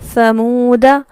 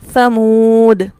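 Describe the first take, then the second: First: The word ends with a short vowel. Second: The word ends on a bare consonant. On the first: The reading continues without stopping. "बल्कि हम क्या पढ़ेंगे?" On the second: The reader stops at this word. "वक्फ की सूरत में समूद, दाल साकिन हो जाएगा"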